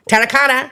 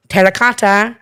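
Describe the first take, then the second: First: Limerick accent. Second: Said in the usual way. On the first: Shown as a demonstration. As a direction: show off how Limerick people say Terracotta. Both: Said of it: "in the Limerick accent is terracotta".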